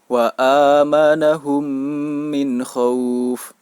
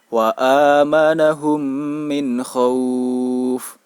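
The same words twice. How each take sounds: First: The long vowel is held for two beats. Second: The long vowel is held for four beats. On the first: "dibaca dengan panjang dua harokat" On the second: "dibaca dengan panjang empat harokat"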